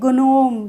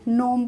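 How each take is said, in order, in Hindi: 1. g उच्चारित होता है। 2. g उच्चारित नहीं होता। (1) "ग्नोम तो नहीं पढ़ेंगे" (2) "नोम पढ़ेंगे"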